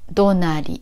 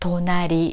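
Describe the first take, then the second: First: The pitch is high, then low, low. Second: The pitch is low, then high, high. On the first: "the pitch is high, low, low" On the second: "low, high, high in pitch"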